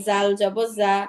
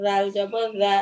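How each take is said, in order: First: জাল and জা as buzzed "zaal", "zaa"; tongue behind the teeth on জা; plain Z, no lisp, in জাল জবর জা; tongue kept in. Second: রাল and রা as voiced "dhaal", "dhaa"; tongue between the teeth on রা; tongue tip out. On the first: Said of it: "এরকম উচ্চারণ হবে". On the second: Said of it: "জিহ্বাটা একটু বের করে". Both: Shown as a demonstration.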